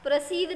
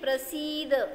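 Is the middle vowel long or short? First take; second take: short; long. First: The middle vowel is short. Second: The middle vowel is long. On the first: The speaker calls it wrong. "प्रसिद्ध नाही" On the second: The speaker calls it right. "स दीर्घ असताना ते दीर्घ वाचा"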